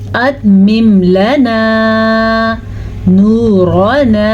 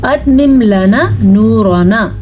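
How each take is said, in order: First: The long vowels are drawn out fully. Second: The long 'a' vowel is cut short. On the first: The speaker calls it right. "वाव मद्दा भी अदा करना है" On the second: The speaker calls it wrong. "बाज़ लोग पढ़ते हैं"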